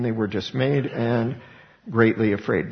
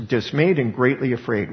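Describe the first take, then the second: First: Said in the usual way. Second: Dismayed hit hard with a falling tune; dismayed leaned on, tune falling; stress on dismayed. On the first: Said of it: "this is gonna be an emphasis of". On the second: Shown as a demonstration. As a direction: punch dismayed, then greatly afraid. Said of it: "this is gonna be an emphasis of, again, the bold".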